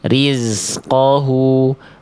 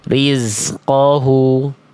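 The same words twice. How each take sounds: The two takes are said the same way.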